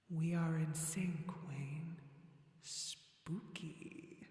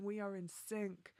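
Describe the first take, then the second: First: Slow, echoing ghostly voice fading to a whisper; spooky voice. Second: Said in the usual way. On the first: Pretend. Streamer teasing Wayne about being in sync, spooky voice. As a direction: play spooky, drawing the words out slowly. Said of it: "my spooky voice".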